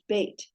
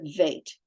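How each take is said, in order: First: It begins with a hard B sound. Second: It begins with a soft V sound. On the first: The letter carries a dagesh dot. "has the B sound" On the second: The letter has no dagesh dot. "It's a soft V sound"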